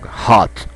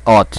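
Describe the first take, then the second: First: The word is pronounced strongly. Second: The word is pronounced weakly. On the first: "You have to pronounce this strong" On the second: "Some people will pronounce hot"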